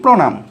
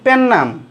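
First: It begins with a pr consonant cluster. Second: It begins pe with a doubled n sound. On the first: It is the original Sanskrit form. The speaker calls it right. "রফলা আসছে ... সেটি হবে তৎসম শব্দ" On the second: It is a corrupted semi-Sanskrit form. The speaker calls it wrong. "পেন্নাম এটা আবার কি অশুদ্ধ উচ্চারণ"

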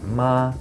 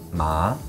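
First: The pitch stays high and level. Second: The pitch rises from mid to high. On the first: It means mother. "the first tone, the high flat tone" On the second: It means hemp. "the second tone, which is a rising tone"

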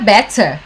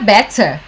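First: It is said with a British accent. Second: It is said with a British accent.

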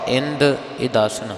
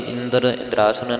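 First: No r sound is heard in either word. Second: An r sound is added in both words. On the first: The speaker calls it right. "ਸ਼ੁੱਧ ਪਾਠ ਇੰਦ ਇਦਾਸਨ ਹਨ" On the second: The speaker calls it wrong. "ਕਿਸੇ ਨੇ ਰਾਰਾ ਲਗਾ ਕਰਕੇ ਇੰਦਰ ਇੰਦਰਾਸਨ ਨਹੀਂ ਕਹਿ ਦੇਣਾ"

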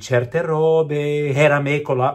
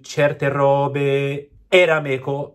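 First: The vowels flow together without any glottal stop. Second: A glottal stop separates the vowels between words. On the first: The speaker calls it right. "without the glottal stroke there" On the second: The speaker calls it wrong. "we hear that glottal, the which does not sound right in Italian"

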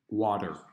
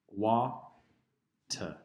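First: It is said in a non-British accent. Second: It is said in a British accent.

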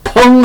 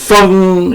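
First: The word begins with a p sound. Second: The word begins with an f sound. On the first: The speaker calls it wrong. "펑 펑 하지 마세요. 피읍 발음이 아닙니다" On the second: The speaker calls it right. "FENG 펑 이렇게 해야 합니다"

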